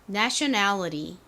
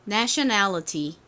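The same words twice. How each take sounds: First: The t is a soft flap like an r. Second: The t is pronounced as a clear t. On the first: "미국식으로 T를 리을처럼 발음해서" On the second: "T 소리를 살려서"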